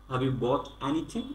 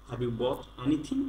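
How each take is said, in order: Both takes have the same delivery.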